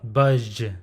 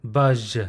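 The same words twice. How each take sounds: The two takes are said the same way.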